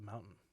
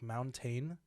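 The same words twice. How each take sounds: First: The middle t is swallowed in casual speech. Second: The middle t is pronounced very clearly.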